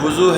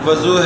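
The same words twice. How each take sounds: First: The first syllable has the vowel 'u'. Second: The first syllable has the vowel 'a'. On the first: "पेश है" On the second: "ज़बर है"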